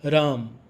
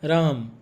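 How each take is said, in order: No difference in how they are said.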